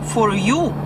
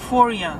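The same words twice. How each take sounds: First: The word 'you' is said in full. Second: The word 'you' is reduced to 'ya'. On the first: This is how non-native learners say it. "Мы говорим for you" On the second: This is how Americans say it. "Они говорят for you. Чаще они говорят я, чем you"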